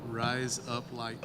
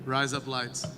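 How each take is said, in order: First: It is said slowly. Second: It is said at normal speed.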